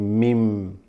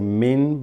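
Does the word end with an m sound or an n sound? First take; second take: m sound; n sound. First: The word ends with an m sound. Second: The word ends with an n sound. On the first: The speaker calls it right. "but you're going to say mim" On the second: The speaker calls it wrong. "you're not going to say min"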